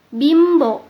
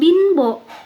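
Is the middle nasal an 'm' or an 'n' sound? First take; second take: m; n. First: The middle nasal is an m sound. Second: The middle nasal is an n sound. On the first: The speaker calls it right. "terdengar seperti em" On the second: The speaker calls it wrong. "bukan binbo"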